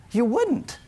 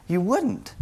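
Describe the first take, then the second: First: High, rising disbelieving answer; as if the idea is absurd; incredulous no. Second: Settled, falling final answer; firm no. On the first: Preacher answering his own question, incredulous. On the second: Preacher settling his own question, firm and final. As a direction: close the point quietly and firmly. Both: Acted.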